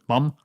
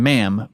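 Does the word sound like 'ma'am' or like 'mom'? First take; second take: mom; ma'am. First: The vowel is a back 'ah', sounding like mom. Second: The vowel is a front 'a', sounding like ma'am. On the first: It imitates a heavy Scottish accent. "his Scottish accent so heavy that he says ma'am, but it sounds like he says mom" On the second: It gives the word as it is meant. "He's saying ma'am"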